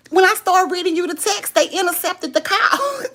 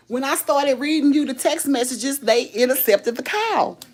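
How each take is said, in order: First: High, loud-edged, on the verge of cracking up; laughing. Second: Said in the usual way. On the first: Real, not acted. Telling viewers why the call dropped, laughing. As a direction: squeal it out through rising laughter. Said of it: "'cause I got to laugh".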